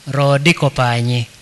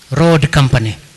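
First: It is said with Luo sounds and syllables. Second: It is said with English sounds and syllables. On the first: "I can pronounce it almost like a Luo speaker" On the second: "It is Road Company"

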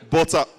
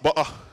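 First: The middle T sound is clearly pronounced. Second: The middle T sound is dropped.

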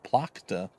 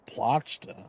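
First: The middle consonant is a hard k sound. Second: The middle consonant is a throaty, rasping ch. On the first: The speaker calls it right. "It's probably Plakta" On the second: The speaker calls it wrong. "Plachta sounds kind of gross"

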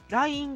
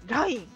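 First: It has the pitch pattern of the app name. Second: It has the pitch pattern of the older word. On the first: The word refers to the messaging app. The speaker calls it wrong. "電話の方の携帯の方のLINE の発音でLINE LINE って思ってたんだけど" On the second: The word is the ordinary word from before the app. The speaker calls it right. "LINE が出る前のLINE だからLINE なんだ"

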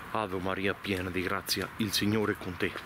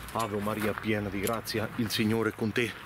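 The two takes are said the same way.

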